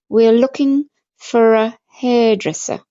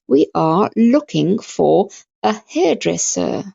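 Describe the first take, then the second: First: The words are run together and shortened. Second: Each word is said fully and separately. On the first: "but how are we going to say it?" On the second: "that's how you pronounce it"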